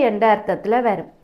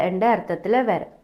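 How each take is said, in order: The two takes are said the same way.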